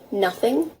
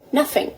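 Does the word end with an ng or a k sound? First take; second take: ng; k. First: The word ends with an ng sound. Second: The word ends with a k sound.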